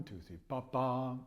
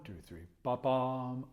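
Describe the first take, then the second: First: Two, three, ba-bam counted slowly; ba-bam too even; wrong take. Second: Two, three, slow, then ba-bam snapped quick and loud; ba-bam clipped short; corrected take. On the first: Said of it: "Not quite". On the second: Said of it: "a little bit quicker than a sixteenth". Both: Shown as a demonstration.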